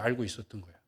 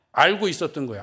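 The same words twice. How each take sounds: First: Softer repeat. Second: Said in the usual way. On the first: Acted. Preacher repeats the point to the congregation, hushed. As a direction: drop to a near hush.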